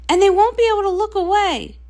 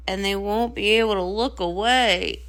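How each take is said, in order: First: Quick, higher and louder; rushing with delight; giddy excitement; thrilled. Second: Lower, heavier voice; grim at being watched; low and glum; dreading. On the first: Star delights in attention. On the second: Sister fears the attention. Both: Acted.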